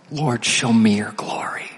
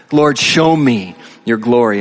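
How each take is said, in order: First: Soft, nearly whispered plea to God; hushed prayer. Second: Full-voiced plea, leaning on "show me"; prayer spoken out. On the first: Acted. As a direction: drop to a reverent near-whisper. Boldest prayer, said hushed first. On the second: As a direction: say the prayer aloud, pausing after "show me". Same prayer repeated aloud.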